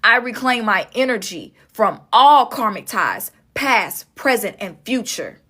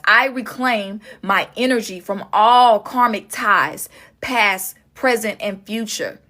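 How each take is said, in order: First: Spoken affirmation. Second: Slow affirmation. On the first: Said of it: "I really want you to say it out loud". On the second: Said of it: "speak this out loud right now". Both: Shown as a demonstration.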